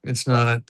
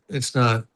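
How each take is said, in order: Both takes have the same delivery.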